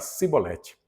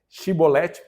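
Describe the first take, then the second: First: It is said the Ephraimite way. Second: It is said the Gileadite way.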